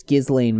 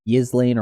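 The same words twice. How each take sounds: First: Ghislaine said with a hard G, "GIZ-lane"; hard-G pronunciation. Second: Ghislaine said with a soft Y-like start, "YIZ-lane"; soft-onset pronunciation. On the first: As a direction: start Ghislaine on a hard G, as in "give". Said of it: "or however pr". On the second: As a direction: soften the G of Ghislaine to a Y. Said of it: "you pronounce her name". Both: Shown as a demonstration.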